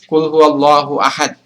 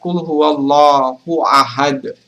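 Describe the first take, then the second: First: The final d stops flat without an echo. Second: The final d bounces with a short echo. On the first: The speaker calls it wrong. "kita tidak boleh membaca ahad, ... Jadi itu kurang tepat" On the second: The speaker calls it right. "Kalau mau yang tepat, ... huruf dalnya harus dibaca memantul"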